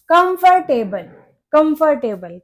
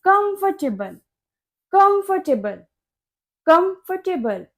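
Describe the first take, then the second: First: कंफर्टेबल as kum-fur-TAY-bul; common mispronunciation. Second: कंफर्टेबल as KUMF-tuh-bul, silent R; correct pronunciation. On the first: Teacher asks what learners say, mispronounced word. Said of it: "इसको हम कंफर्टेबल नहीं बोलते". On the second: Teacher says R is silent, correct pronunciation. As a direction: say कंफर्टेबल higher, with reduced TUH. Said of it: "इसमें आर silent होता है". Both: Shown as a demonstration.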